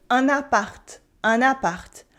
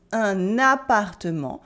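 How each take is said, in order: First: "un appart" ending sharply on the t; clipped short form. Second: Said in the usual way. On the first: Shown as a demonstration. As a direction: say "un appart" with the "-ement" ending cut off. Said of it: "French people cut a lot of letters and syllables". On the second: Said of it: "Or instead of".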